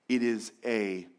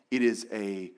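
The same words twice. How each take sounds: The two takes are said the same way.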